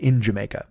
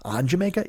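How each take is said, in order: First: "In Jamaica." said low and flat, falling at the end to settle it; decide on "In Jamaica." with a firm, flat fall; settled statement. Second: "On Jamaica?" asked with a rising, doubtful tune; questioning tune. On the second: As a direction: try out "On Jamaica?" as a quiet, unsure question. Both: Real, not acted. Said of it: "I, I, in Jamaica".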